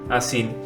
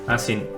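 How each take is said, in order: No difference in how they are said.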